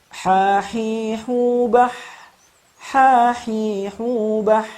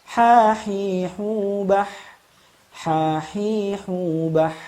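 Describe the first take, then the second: The two takes are said the same way.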